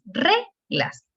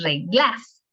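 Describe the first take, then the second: First: The stress is on the first syllable. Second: The stress is on the second syllable. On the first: The speaker calls it right. "la sílaba tónica es re, porque es reglas" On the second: The speaker calls it wrong. "no es reglas"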